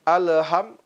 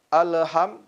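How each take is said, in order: Both takes have the same delivery.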